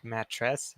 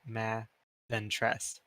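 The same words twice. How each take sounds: First: Said in the usual way. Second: "ma", a pause, then "tress"; split into ma, tress. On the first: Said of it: "instead of saying". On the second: Shown as a demonstration. Student imagines another accent, "ma" then "tress" as separate syllables. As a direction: break the word after "ma", leaving the T to "tress". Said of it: "just saying, like".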